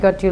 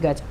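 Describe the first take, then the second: First: Both words are said separately with a clear t. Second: The words blend into one with a ch sound.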